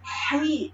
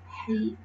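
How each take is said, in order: First: The h is pushed out with a heavy, exaggerated breath. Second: The h is said with a light, ordinary breath. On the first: The speaker calls it wrong. "hi-nya nggak boleh lebay juga" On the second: The speaker calls it right. "Biasa aja"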